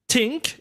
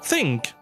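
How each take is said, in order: First: The word starts with a hard T sound. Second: The word starts with a soft TH sound. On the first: The speaker calls it wrong. "think instead of" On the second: The speaker calls it right. "instead of think"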